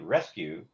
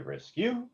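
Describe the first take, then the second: First: The first syllable is higher in pitch. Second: The second syllable is higher in pitch. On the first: The speaker calls it right. "The first syllable is usually higher than the second one" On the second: The speaker calls it wrong. "you don't say rescue"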